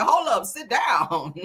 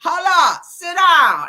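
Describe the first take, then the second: First: Slow, drawn-out Hold up, sit down; quoting [name]. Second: Louder, punchy Hold up, sit down; loud callout. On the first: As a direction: lay the lyric out slowly, savoring it. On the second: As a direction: bark it out like a rap hook. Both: Retold or imitated. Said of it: "Ain't that what [name] said?".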